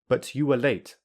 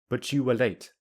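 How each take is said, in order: First: The t and y stay separate sounds. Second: The t and y merge into ch. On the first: "I will say them without linking" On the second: "I will use linking"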